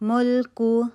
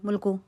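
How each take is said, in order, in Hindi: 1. यह शब्द धीरे और शांति से बोला गया है। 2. यह शब्द जल्दी और हड़बड़ी में बोला गया है। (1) "आराम सुकून से टाइम दे के पढ़ें" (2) "जल्दी से नहीं पढ़ देना, मुल्कु मुल्कु ऐसे नहीं पढ़े"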